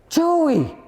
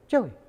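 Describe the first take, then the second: First: The name is called in a raised voice. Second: The name is called at a normal volume. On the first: The caller is getting nervous about a missing one. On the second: The caller is not yet worried.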